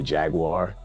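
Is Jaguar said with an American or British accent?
American. It is said with an American pronunciation. "we say Jaguar in America"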